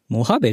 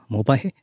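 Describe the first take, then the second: First: The word is said as Mohabe. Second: The word is said as Mobahe. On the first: The speaker calls it right. "モハベじゃないですか。" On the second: The speaker calls it wrong. "モバヘっつった？ なんかモバゲーみたいな。"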